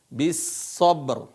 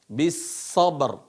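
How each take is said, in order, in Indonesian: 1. Kata ini diakhiri dengan konsonan r. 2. Kata ini diakhiri dengan konsonan r.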